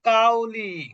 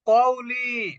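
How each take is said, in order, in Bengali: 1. প্রথম ধ্বনিটি একটি সাধারণ সামনের k। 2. প্রথম ধ্বনিটি গলার গভীর থেকে উচ্চারিত হয়। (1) "কাউ হচ্ছে কাফ" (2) "এখানে আছে কফ"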